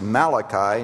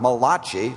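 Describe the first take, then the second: First: The name is said in the usual English way. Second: The name is said the way an Italian might. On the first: The speaker calls it right. "it is pronounced Malachi" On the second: The speaker calls it wrong. "not Malachi, like an Italian friend of mine thought it was"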